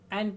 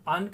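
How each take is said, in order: First: The vowel is a full open 'a' sound. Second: The vowel is a short reduced schwa. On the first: "strong form में एन का उच्चारण किया जाता है" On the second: "weak form में अन का उच्चारण किया जाता है"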